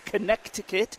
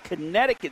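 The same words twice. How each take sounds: First: The middle c is sounded, as spelled. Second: The middle c is silent, as usual.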